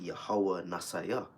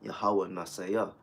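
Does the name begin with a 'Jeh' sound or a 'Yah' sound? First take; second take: Yah; Yah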